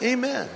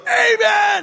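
First: It is said calmly and quietly. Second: It is shouted very loudly.

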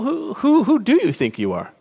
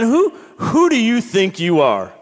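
First: It sounds curious and reflective. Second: It sounds challenging and accusing. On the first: It is a sincere question about one's identity. "Like, what's going on in your life?" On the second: The listener is being put in their place. "We could say it one way, like, Ken"

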